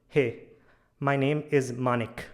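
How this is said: The pitch goes up at the end. The speaker is nervous and lacks confidence. The speaker calls it wrong. "my tone was going a bit up, I was a bit nervous"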